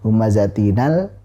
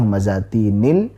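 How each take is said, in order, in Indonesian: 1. Huruf n diikuti vokal a. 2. Huruf n diikuti vokal i.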